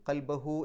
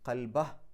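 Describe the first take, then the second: First: The final hu is stretched to two counts. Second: The word ends on a bare h, no vowel. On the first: The reciter continues without stopping. "ഹു എന്നുള്ളതിനെ രണ്ടക്ഷരത്തിൻ്റെ ദൈർഘ്യം നീട്ടിയിട്ട്" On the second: The reciter stops here. "ആ ഹ എന്ന് സുക്കൂനിട്ടിട്ടാണ് നിർത്തേണ്ടത്"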